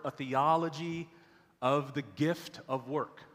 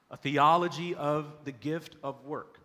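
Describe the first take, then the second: First: Said in the usual way. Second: The series title rung out louder and slower; title repeated louder. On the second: Shown as a demonstration. Preacher repeating the series title to the church, louder and slower. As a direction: proclaim "A Theology of the Gift of Work" a second time with more force.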